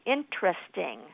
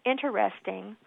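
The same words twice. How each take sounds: First: The word is said with three syllables. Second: The word is said with four syllables. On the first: "or three" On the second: "either as four syllables"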